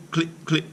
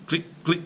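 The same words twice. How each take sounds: The two takes are said the same way.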